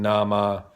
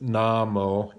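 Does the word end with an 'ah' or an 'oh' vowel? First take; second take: ah; oh. First: The word ends with an 'ah' vowel. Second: The word ends with an 'oh' vowel. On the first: The speaker calls it wrong. "She's kind of saying Nama" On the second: The speaker calls it right. "It's it's Namo"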